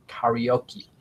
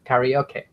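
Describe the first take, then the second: First: Karaoke said as "ka-ree-oh-kee", lower and softer; second pronunciation try. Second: Karaoke said as "KA-ree-oh-keh", rising like a question; unsure pronunciation try. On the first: Unsure learner tries karaoke again, softer. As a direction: end karaoke on "kee", quietly, trying it out. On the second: Unsure learner testing how to say karaoke. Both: Shown as a demonstration. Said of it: "I don't know how to pronounce that".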